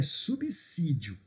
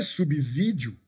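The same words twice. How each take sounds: First: The middle consonant sounds like an s. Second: The middle consonant sounds like a z. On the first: The speaker calls it right. "toma cuidado ao pronunciar, é subsídio" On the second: The speaker calls it wrong. "Professor, não é subsídio? Não"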